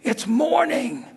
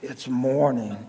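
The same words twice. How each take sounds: First: It is said in a cheerful, pleasant tone. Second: It is said in a groggy, reluctant tone. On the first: The person is eager to get up. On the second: The person would rather stay in bed.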